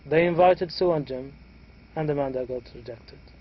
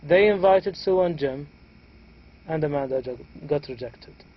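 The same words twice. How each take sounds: First: The voice rises and breaks after Jim. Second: The same.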